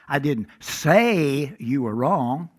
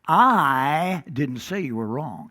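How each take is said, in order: First: The stress falls on the word say. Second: The stress falls on the word I. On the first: It was expressed in another way. "implying I said it another way" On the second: Someone else said it. "implying it wasn't me"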